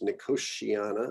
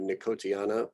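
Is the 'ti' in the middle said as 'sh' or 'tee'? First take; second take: sh; tee. First: The 'ti' is said as an English 'sh'. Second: The 'ti' is said as a separate 'tee'. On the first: This is how most people say it. "that's this uh, T I thing we do in English" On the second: This is a less common alternative. "you could also do Nicotiana"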